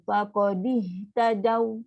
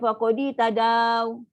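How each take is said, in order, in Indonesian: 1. Bunyi vokal akhir hanya dibaca singkat. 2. Bunyi vokal akhir dibaca panjang. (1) "Huruf lin satu harakat sahaja" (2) "dia dipanjang, salah"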